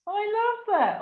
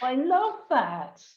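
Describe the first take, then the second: First: Much higher, choked with emotion; the words catch as tears rise; moved, near tears. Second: Slow and emphatic, voice full of feeling; moved, near tears. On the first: Host to guest, voice breaking high with emotion. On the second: Host to guest, deeply moved, slow and heartfelt. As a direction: savour each word, moved. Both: Real, not acted. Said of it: "I almost burst into tears then".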